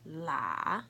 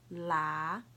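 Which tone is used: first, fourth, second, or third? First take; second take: third; second. First: The pitch dips low, then rises. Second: The pitch rises from mid to high.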